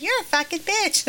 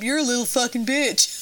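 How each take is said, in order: First: Put-on tiny, high little-boy voice; Roscoe's tiny voice. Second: Lightly voiced pool bully; retold older kid. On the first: Little boy repeating the insult in the kitchen, tiny high voice. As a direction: repeat the insult in a small child's high pitch. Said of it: "this is in Roscoe's tiny voice". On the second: Older kid to his friend about the diver, mock taunt. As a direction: imitate a kid putting someone down. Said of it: "And the kid goes".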